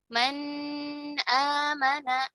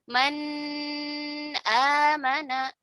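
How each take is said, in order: Both takes have the same delivery.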